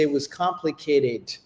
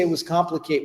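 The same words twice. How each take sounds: First: The final d sound is clearly heard. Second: The final d sound is dropped. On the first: The speaker calls it right. "Because there's a D at the end of it" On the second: The speaker calls it wrong. "We don't say it was complicated"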